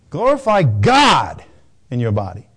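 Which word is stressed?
God. The stress falls on the word God. Of all things one could glorify, choose God. "You can glorify whatever you want. How about God?"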